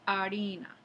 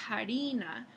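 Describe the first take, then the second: First: The word begins directly with the vowel. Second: The word begins with an audible breathy h. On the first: This is the modern pronunciation. "se dice harina" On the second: This is the older medieval pronunciation. "en lugar de harina"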